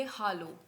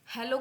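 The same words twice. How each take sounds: First: "हालो" with an open ah first; German-style "हालो", first vowel ah; German hallo. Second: "हेलो" with an e in the first syllable; English-style "हेलो", first vowel eh; English hello. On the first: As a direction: say "हालो" as HAH-lo. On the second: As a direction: say "हेलो" as HEH-lo. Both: Shown as a demonstration. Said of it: "हेलो को हम बोलेंगे हालो".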